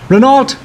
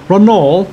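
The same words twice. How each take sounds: First: "Renault" said as REN-alt, with the final t sounded; "Renault" read like English spelling, ren-ALT with a hard t; spelled-out pronunciation. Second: "Renault" said as ro-NO, with a silent t; "Renault" in the French way, ro-NOH, no t at the end; French-style pronunciation. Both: Shown as a demonstration. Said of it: "how do you pronounce Renault".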